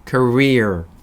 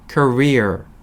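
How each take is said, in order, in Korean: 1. 첫 모음은 cur의 'ur'처럼 소리 나요. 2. 첫 모음은 cur의 'ur'처럼 소리 나요.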